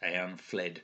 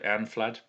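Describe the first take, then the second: First: The second syllable has the vowel of fled. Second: The second syllable has an open ah vowel. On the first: This is another reader's pronunciation. The speaker calls it wrong. "Barnaby Edwards pronounces that Eanfled" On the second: This is the pronunciation the speaker believes correct. The speaker calls it right. "but I think it's flad"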